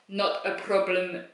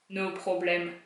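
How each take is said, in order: First: It is said in a heavy put-on Russian-like accent. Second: It is said in the speaker's own plain voice.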